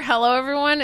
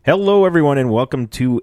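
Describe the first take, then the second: First: Imitating a gulped greeting; mock gulping hello; swallowed a bubble. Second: High, loud gulped greeting; hello like gulping a bubble; swallowed a bubble. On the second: Real, not acted. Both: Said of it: "sounded like you swallowed a bubble".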